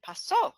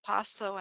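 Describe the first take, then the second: First: "pasó" stressed on the final SÓ; stress on last syllable. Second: "paso" stressed on PA; stress on first syllable. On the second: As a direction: hit the first syllable of "paso", unstressed ending. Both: Shown as a demonstration. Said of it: "distinguish between pairs of words".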